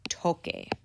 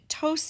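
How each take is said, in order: First: The consonant before the final e is a k. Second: The consonant before the final e is an s. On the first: The speaker calls it right. "Q U makes a K sound" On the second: The speaker calls it wrong. "tose actually means coughs"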